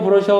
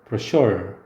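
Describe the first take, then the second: First: The stress is on the first syllable. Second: The stress is on the second syllable. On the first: The speaker calls it wrong. "브로셔가 아니라" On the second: The speaker calls it right. "뒤에를 강하게 읽어요"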